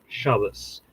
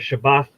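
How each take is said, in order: First: It is said in an Ashkenazi accent, ending in s. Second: It is said in a Mizrahi accent, ending in t. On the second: "if you want to be on the Mizrahi end of it"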